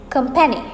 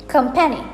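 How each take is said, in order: No difference in how they are said.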